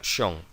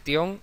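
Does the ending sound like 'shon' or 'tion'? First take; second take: shon; tion. First: The ending is said with an sh sound. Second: The ending is said with a t sound. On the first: The speaker calls it right. "sino shon" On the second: The speaker calls it wrong. "No se dice tion"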